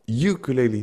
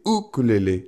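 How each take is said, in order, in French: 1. Le mot se prononce à la française. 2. Le mot se prononce à la hawaïenne. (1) "c'est pas ukulélé" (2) "c'est ukulélé. Est-ce que tu pourrais, s'il te plaît, respecter ma culture"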